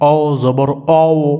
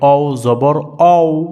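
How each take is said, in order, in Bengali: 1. শেষ অক্ষরটি 'aw' এর মতো শোনায়। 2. শেষ অক্ষরটি 'aw' এর মতো শোনায়।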